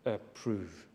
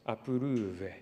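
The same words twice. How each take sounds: First: It is said with a typical English pronunciation. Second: It is said Fijian style with inserted vowels. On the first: "demonstrated the typical English pronunciation" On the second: "they typically pronounce this word as"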